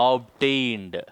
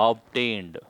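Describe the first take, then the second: No difference in how they are said.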